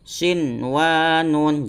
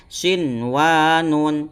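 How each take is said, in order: No difference in how they are said.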